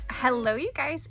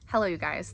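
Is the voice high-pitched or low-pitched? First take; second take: high; low. First: It is said in a high, bright voice. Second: It is said in a lower, natural voice. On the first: It sounds like a customer service greeting. "that was a customer service voice" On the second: It sounds like a casual, natural greeting. "let me come down a few octaves"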